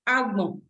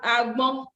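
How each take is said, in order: First: The pitch steps down on the second syllable. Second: The pitch steps up on the second syllable.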